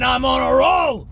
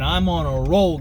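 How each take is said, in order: First: Higher and louder roaring declaration; shouted "roll" at full ranting pitch; Alex Jones shout. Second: Said in the usual way. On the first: Acted. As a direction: burst out with it like the rant catching fire. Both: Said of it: "my Alex Jones impression".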